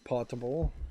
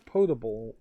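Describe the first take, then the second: First: The first syllable sounds like the word 'pot'. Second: The first syllable has a long 'oh' vowel. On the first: This may be the British pronunciation. "maybe in British English it is potable" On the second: This is the usual pronunciation. "Generally, I've heard it pronounced as potable water"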